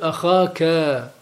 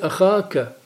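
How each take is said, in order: First: The final vowel is lengthened. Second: The final vowel is short. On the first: The vowel is lengthened to fit the poetic meter. "işba harfini getiriyor vezin müstakim olması için. Oluyor ahaka" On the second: This is the word's normal form. "Orada bir işba harfi yoktur"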